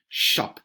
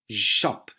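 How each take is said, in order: First: Shop with a long, breathy sh; hissed sh. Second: Said in the usual way. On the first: Shown as a demonstration. Teacher repeats the word to show the SH sound. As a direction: draw out the sh in shop. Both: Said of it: "S and H".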